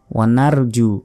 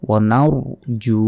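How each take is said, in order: First: "নারজু" with thin r and open "nar"; short "নারজু", lips unrounded; ভুল উচ্চারণ. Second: "নারজু" with rounded, full "naur" and long ju; সঠিক মোটা র. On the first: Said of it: "ওয়া নার নয়". ("নারজু" পাতলা র দিয়ে) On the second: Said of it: "ঠোঁটটা গোল হবে". ("নারজু" র মোটা করে, জু টেনে) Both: Shown as a demonstration.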